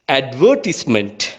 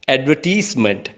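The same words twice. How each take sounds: First: It is said in a British English accent. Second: It is said in an Asian English accent.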